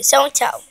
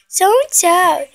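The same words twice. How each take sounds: First: Said in the usual way. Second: "Só um tchau" slower, higher and louder, leaning on "um"; coaxing emphasis. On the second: Shown as a demonstration. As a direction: plead for just one "tchau", stretching it.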